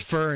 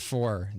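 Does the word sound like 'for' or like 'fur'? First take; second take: fur; for. First: The vowel sounds like the word fur. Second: The vowel sounds like the word for. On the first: "it's fur instead of four" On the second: "instead of four"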